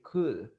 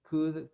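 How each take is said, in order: First: The L is silent in the word. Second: The same.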